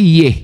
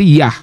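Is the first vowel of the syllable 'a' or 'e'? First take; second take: e; a. First: The syllable is said with an 'e' vowel. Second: The syllable is said with an 'a' vowel. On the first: "Kalau E berarti Yeh" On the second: "Kalau dia A berarti Yah"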